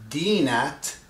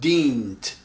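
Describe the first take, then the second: First: The word has a vowel between n and t. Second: The word has no vowel between n and t. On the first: The speaker calls it wrong. "instead of saying dinat" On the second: The speaker calls it right. "you have to say dint. Omit the A"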